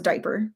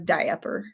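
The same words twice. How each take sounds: First: The middle 'a' sound is dropped, two syllables. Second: The middle 'a' sound is pronounced, three syllables. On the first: This is how most people say it. "you kind of just pretend the A is not even there" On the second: This is how one particular person says it. "But she doesn't"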